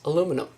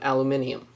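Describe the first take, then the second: First: It is said the American way, without the extra syllable. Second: It is said the British way, with an extra syllable. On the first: "Americans pronounce" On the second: "British people say aluminium"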